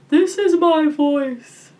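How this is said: The voice is round and open, like a yawn. "making the sound really round, like you're trying to induce a yawn"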